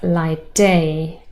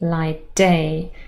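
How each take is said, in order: First: The t is dropped and only d is heard. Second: The t is dropped and only d is heard.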